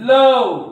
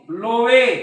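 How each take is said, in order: First: It is said as one syllable, 'luv'. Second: It is said as two syllables, 'lo-veh'. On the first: The speaker calls it right. "उच्चार हा अ होतो" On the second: The speaker calls it wrong. "असं म्हणू नका"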